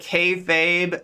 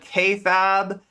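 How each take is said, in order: First: The word ends with a long 'fabe' sound. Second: The word ends with a short 'fab' sound. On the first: The speaker calls it right. "instead of kayfabe" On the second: The speaker calls it wrong. "I would mispronounce it. So I, I famously said K-fab"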